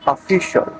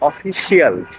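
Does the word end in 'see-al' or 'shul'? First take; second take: shul; see-al. First: The word ends with a 'shul' sound. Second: The word ends with a 'see-al' sound. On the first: The speaker calls it right. "So the correct pronunciation is official" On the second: The speaker calls it wrong. "আমরা বাঙালিরা বলি অফিসিয়াল। This is not the correct pronunciation."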